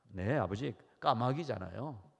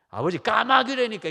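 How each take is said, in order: First: It is said calmly and politely. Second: It is said with rising irritation.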